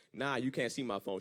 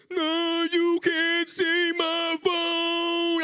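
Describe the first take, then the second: First: Said in the usual way. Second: High, loud, hugely drawn-out whine; exaggerated slow mimicry of a boyfriend; mocking his voice. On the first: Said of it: "I was like". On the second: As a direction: stretch every word in a mocking high wail. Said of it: "when she make fun of your voice".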